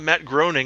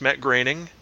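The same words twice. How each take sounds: First: The first vowel of Groening sounds like 'o'. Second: The first vowel of Groening sounds like 'e'. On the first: The speaker calls it wrong. "it's not Matt Groening" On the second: The speaker calls it right. "O-E is an E sound"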